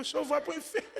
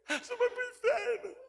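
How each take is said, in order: First: Put-on amused boy. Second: Much higher, loud, delighted verdict; gleeful giggly boy. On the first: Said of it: "mandou eu pro inferno rindo". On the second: Retold or imitated. Boy cheerfully telling the doctor he's going to hell, giggly and high. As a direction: chirp it out, tickled by the idea. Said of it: "achando barato".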